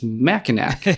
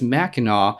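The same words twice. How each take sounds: First: The last syllable ends with a hard k sound. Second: The last syllable ends in an aw sound. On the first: The speaker reads it as an outsider would. The speaker calls it wrong. "if you're an outsider and you look at it and you look at a word that ends in a C" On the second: The speaker says it as a local would. The speaker calls it right. "if you are someone who lives in Michigan"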